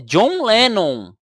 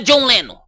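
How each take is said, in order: First: The name has its original English pronunciation. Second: The name has a Portuguese-adapted pronunciation. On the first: The name is kept as it is in its original language. The speaker calls it right. "se fosse pra seguir o nome, é [name]" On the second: The name has been adapted to the local language. The speaker calls it wrong. "Não é John Lennon. ele já fez uma adaptação"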